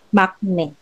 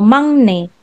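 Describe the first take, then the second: First: The middle consonant is a k sound. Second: The middle consonant is an ng sound. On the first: The speaker calls it wrong. "So yan ang kanyang romanization" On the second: The speaker calls it right. "So mangne, which means youngest"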